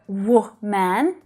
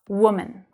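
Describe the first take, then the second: First: The second syllable has a full, clear vowel. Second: The second syllable is a soft, weak schwa. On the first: The speaker calls it wrong. "You don't hear w man" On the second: The speaker calls it right. "That second syllable is reduced"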